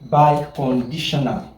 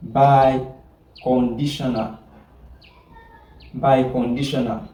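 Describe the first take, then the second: First: Said in the usual way. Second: Biconditional drawn out slowly, syllable by syllable; slow repetition. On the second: Shown as a demonstration. Teacher repeating the new term for the class, slowly. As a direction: stretch out Biconditional so students catch it.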